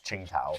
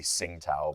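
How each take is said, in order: First: The first syllable begins with a 'ch' sound. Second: The first syllable begins with a 'ts' sound. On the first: The speaker calls it right. "but realistically it's Ching it's Qingtao" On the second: The speaker calls it wrong. "I've been saying it incorrectly this entire time. I say Tsingtao"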